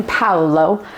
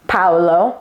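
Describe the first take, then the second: First: Paolo repeated, POW-lo, slower and lower; Paolo, two syllables, stress on POW; Italian pronunciation. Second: Paolo said the Italian way, POW-lo; Paolo, two syllables, stress on POW; Italian pronunciation. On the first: Teaching viewers to say Paolo, Italian style. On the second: Wine educator showing how to say Paolo, Italian style. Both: Shown as a demonstration. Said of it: "That's how you say that in Italian".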